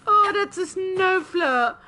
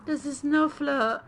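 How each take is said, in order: First: Oh, that's a snow flare, high and loud with a delighted Oh; delighted exclaim. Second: Said in the usual way. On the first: Real, not acted. Streamer spots a cute creature, delighted and loud. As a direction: gush over the cute creature.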